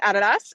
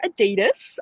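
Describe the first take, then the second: First: Adidas said the Australian way, stress on the first syllable, AD-uh-dass; Adidas as AD-a-das, opening with a flat short A; Aussie pronunciation. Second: Adidas said the American way, stress on the middle syllable, uh-DEE-das; Adidas as uh-DEE-dus, with a long E in the middle; American pronunciation. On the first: Aussie telling Americans how she says Adidas, stressing AD-a-das. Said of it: "there's a couple of pronouncings". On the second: Aussie copying how Americans say Adidas, uh-DEE-das. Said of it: "you guys pronounce it Adidas". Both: Shown as a demonstration.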